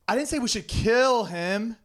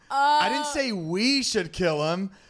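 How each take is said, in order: First: The stress is on the word 'kill'. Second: The stress is on the word 'we'.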